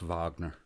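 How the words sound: The name is said the German way. This is how it is said in Germany. "If if you're in Germany, it's Wagner"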